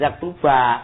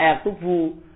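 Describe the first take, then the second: First: The word ends with an 'a' vowel. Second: The word ends with a 'u' vowel. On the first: The speaker calls it wrong. "jangan dibaca apa ya, wa yaktuba" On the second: The speaker calls it right. "baca yaktubu"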